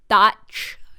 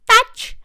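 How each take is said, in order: First: It is said in the speaker's normal voice. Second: It is said in Mort's high-pitched accented voice.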